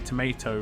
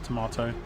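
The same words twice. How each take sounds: First: It is said the American way. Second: It is said the British way. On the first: "some Americans say tomato" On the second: "pronounce it like English people"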